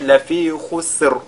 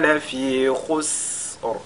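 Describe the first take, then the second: First: The s sound is short and clipped. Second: The s sound is drawn out and hissed. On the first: The speaker calls it wrong. "là ce ne sera pas correct" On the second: The speaker calls it right. "c'est d'allonger la prononciation... De cette façon-là"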